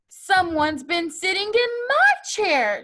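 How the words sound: It is sighed in Mama Bear's voice.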